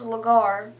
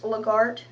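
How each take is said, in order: First: The word ends without any T sound. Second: The word ends with an audible T sound. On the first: This is how the name is meant to be said. The speaker calls it right. "it's got a silent T on the end, but it's pronounced Lagar" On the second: This is how the name looks when read from its spelling. The speaker calls it wrong. "it's Lagart, not really"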